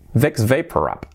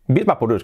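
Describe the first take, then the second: First: The name is said the English way, ending 'rub'. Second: The name is said the Spanish way, ending 'rux'. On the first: This is how the brand name is originally pronounced. "¿Y cómo se pronuncia esto? ... Preparaos que es muy, muy diferente" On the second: This is how people in Spain usually say it. "creo que solemos decir"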